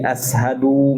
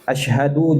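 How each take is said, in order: First: The middle consonant is a plain 's' sound. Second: The middle consonant is a 'sh' sound. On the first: The speaker calls it wrong. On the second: The speaker calls it right.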